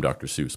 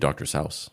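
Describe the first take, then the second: First: The name gets its common, widely adopted pronunciation. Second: The name gets its original, intended pronunciation. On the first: This is how people came to say it. The speaker calls it wrong. "it just became Doctor Seuss" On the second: This is how it was meant to be said. The speaker calls it right. "it was supposed to be Doctor Seuss"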